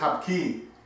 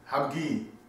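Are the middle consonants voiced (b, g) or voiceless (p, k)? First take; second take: voiceless; voiced. First: The middle consonants are a voiceless p and k. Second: The middle consonants are a voiced b and g. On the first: This is the common everyday pronunciation. The speaker calls it wrong. "Most people say Hapki with a P" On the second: This is the accurate Korean pronunciation. The speaker calls it right. "It's almost like saying habgi with a G"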